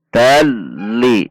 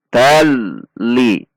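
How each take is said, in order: Both takes have the same delivery.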